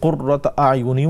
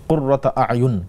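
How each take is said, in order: First: The final word ends with an added 'i' vowel. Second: The final word stops without a linking vowel. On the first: The reciter joins it to the next word. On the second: The reciter pauses after this word.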